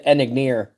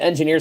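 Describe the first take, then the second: First: The word begins with the sounds en-ig. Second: The word begins with the sounds en-jin. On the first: This is how the misspelled package label reads. "It was like Enigneer" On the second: This is the normal name of the sandwich. "They called the Engineer sub"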